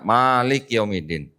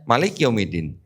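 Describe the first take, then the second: First: The vowel after the M is drawn out long. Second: The vowel after the M is kept short. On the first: It means the one who holds power. "Ma-nya panjang" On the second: It means king. "ada ma pendek"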